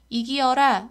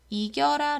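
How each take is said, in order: First: The word is said with four syllables. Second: The word is said with three syllables. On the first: "줄이지 않고" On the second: "이겨라 라고 줄이잖아요"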